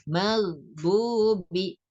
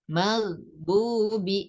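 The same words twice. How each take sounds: The two takes are said the same way.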